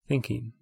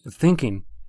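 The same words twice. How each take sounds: First: The word is said in a soft, gentle tone. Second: The word is said in a harsh, judging tone. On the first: The mind's wandering is kindly acknowledged. The speaker calls it right. "soften it next time with a gentle acknowledgement like a friend would" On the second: The mind's wandering is being judged. The speaker calls it wrong. "notice that's a habitual reaction to your own mind"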